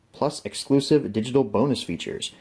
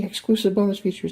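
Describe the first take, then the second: First: Said in the usual way. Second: Bonus stressed in a high, thrilled voice; excited. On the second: Real, not acted. Collector thrilled to repeat the bonus features, excited. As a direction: gush over the word bonus, pitched way up. Gushes over repeated label text.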